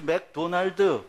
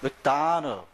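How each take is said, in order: First: Every syllable is said evenly, with no stress. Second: One syllable is stressed and the rest are reduced. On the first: The speaker calls it wrong. "발음을 똑바로 한다고 또박또박 악센트 빼서 얘기하잖아요? 하나도 못 알아들어요" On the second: The speaker calls it right. "그래야 알아들어요"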